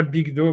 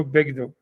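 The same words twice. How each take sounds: First: Bigdo said with an I sound, BIG-do; Bigdo, first vowel an I; wrong Bigdo. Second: Begdo said with an E sound, BEG-do; Begdo, first vowel an open E; correct Begdo. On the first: Showing a study partner the reading to reject: Bigdo with I. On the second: Giving a study partner the right reading: Begdo with E. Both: Shown as a demonstration. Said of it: "Pas Bigdo".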